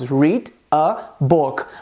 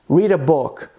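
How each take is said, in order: First: Each word is said separately with small gaps. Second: The words run together with linked sounds. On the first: "a gente tem as palavras" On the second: "a gente une e diz"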